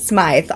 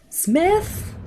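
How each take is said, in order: First: The name has a long 'eye' vowel. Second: The name has a short 'ih' vowel. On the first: The speaker calls it right. "it's pronounced Smythe" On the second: The speaker calls it wrong. "whatever I choose is always wrong"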